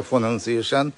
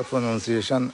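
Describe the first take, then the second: The two takes are said the same way.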